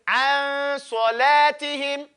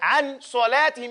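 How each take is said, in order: First: The n sound fades nasally into the next sound. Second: The n sound is pronounced fully and clearly. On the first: The speaker calls it right. "you fade in it" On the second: The speaker calls it wrong. "you wouldn't say"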